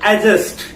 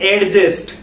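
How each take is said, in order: First: The d sound is silent. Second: The d sound is clearly pronounced. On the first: The speaker calls it right. "जैसे अपना एक word आता है एडजस्ट" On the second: The speaker calls it wrong. "ना कि एडजस्ट"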